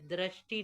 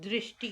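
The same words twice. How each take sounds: First: The first syllable sounds like dra. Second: The first syllable sounds like dri. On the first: The speaker calls it wrong. "दृष्टि नहीं कहेंगे" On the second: The speaker calls it right. "दृष्टि कहेंगे"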